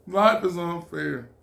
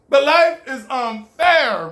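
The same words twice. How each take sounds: First: Said in the usual way. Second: LIFE drawn out, higher and slow; stress on life. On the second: Acted. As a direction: lean hard on life, slowly. Stressed life lesson, slowed.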